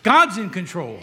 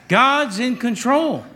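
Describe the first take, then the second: First: Said in the usual way. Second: "God's in control" said slowly with weight on "control"; slow emphatic declaration. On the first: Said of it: "repeated for emphasis". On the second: Shown as a demonstration. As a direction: lean into each word of "God's in control". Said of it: "repeated slower, emphasised".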